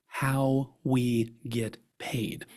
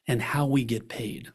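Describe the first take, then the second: First: Slow and relaxed. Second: Said in the usual way. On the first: Shown as a demonstration. Speaker modelling the fee talk for advisors, slow and relaxed. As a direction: let "how we get paid" land slowly and calmly. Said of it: "important to say the words, "how we get paid". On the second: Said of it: "important to say the words".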